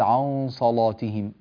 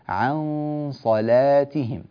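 First: The ain and lam sound heavy and thick. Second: The ain and lam sound light and thin. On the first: The speaker calls it wrong. "لا تقول" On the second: The speaker calls it right. "رقق العين واللام"

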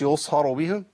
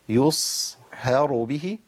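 First: The vowel after h is rounded toward u. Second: The vowel after h is a spread i. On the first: The speaker calls it wrong. "ما قلتش يصهروا به" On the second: The speaker calls it right. "ابتسامه تبويزه"

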